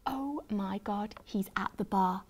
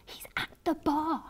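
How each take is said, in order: First: Hushed realisation. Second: High, soft breathless whisper; thrilled gasp. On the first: Fan spots the singer at the bar, hushed. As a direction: let it sink in quietly. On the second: Fan sees her crush at the bar, thrilled whisper. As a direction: gasp it in giddy disbelief. Repeats it, thrilled at seeing him. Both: A narrator's reading.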